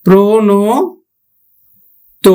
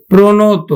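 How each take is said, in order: First: প্রণত broken up, pause before the last "to"; syllable-by-syllable o ending. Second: Said in the usual way. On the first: Shown as a demonstration. Teacher breaking down the word for students, slow split প্রণত. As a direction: stretch প্রণত piece by piece, each ending on o. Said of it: "উকারের মতো". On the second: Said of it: "আমরা উচ্চারণ করতেছি কি, কিভাবে".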